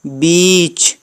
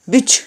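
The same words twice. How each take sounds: First: बीच with a long held ee, like English beach; long vowel. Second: बिच said short and clipped, a quick i; short vowel. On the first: Teacher showing students बीच with the long sound. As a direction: hold the ee in बीच. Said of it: "बीच long sound". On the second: Teacher showing students बिच with the short sound. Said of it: "short sound मतलब उसको छोटे में बोल देना". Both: Shown as a demonstration.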